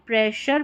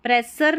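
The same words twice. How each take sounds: First: "प्रेशर" with sh in the middle; सही उच्चारण. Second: "प्रेशर" said as "presar", with s; गलत उच्चारण. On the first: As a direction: say "प्रेशर" as "preshar". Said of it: "pronounce करेंगे". ("प्रेशर" में श की ध्वनि) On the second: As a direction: say "प्रेशर" with a plain s in the middle. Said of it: "नहीं बोलना है". ("प्रेशर" को स से "प्रेसर" बोलें) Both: Shown as a demonstration.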